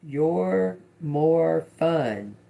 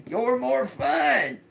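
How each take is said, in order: First: Said in the usual way. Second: High-pitched squeal through laughter; laughing. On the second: Real, not acted. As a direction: crack up and squeal it out much higher. Cracks up, repeats the message.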